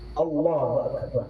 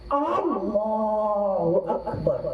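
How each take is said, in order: First: The opening vowel of Allah is kept short. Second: The opening vowel of Allah is drawn out long. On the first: It states that God is great. The speaker calls it right. "Qasir, pendek" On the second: It asks whether God is great. The speaker calls it wrong. "Al panjang, al, ya, ah panjang"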